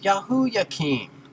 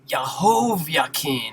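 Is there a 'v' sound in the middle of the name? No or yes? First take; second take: no; yes. First: A vowel sounds in the middle, with no 'v'. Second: A 'v' consonant sounds in the middle of the name. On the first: The speaker calls it right. "Nothing to do with a consonant sound" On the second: The speaker calls it wrong. "nobody would think it's"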